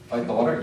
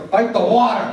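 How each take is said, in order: First: Said in the usual way. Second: High, loud chant of fight the water; rising shout. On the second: Retold or imitated. Counselor chanting to bored campers, shouting. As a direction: build the chant to a yell. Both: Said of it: "Yeah, fight the water".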